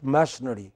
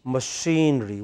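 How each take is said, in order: First: Machinery with stressed MASH; mistaken pronunciation. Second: Machinery as muh-SHEEN-ree; correct pronunciation. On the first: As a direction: say machinery as MASH-uh-nuh-ree. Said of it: "It's not machinery". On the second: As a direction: stretch a stressed SHEEN in machinery. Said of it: "What is it?". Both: Shown as a demonstration.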